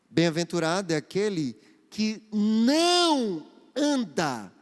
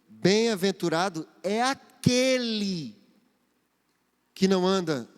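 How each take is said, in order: First: The word não carries the emphasis. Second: The word aquele carries the emphasis. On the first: There is something one must not do. "você pode dar mais entonação nessa frase... há um não aí" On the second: A specific person is the one who is happy. "a ênfase da minha repetição, da minha leitura está naquele"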